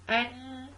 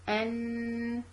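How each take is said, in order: First: The sound is choked, with the nose held shut. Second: The sound is clear, with air through the nose. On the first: The speaker calls it wrong. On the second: The speaker calls it right.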